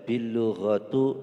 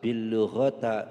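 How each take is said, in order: First: The last word ends with a u vowel. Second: The last word ends with an a vowel. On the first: "Tidak boleh"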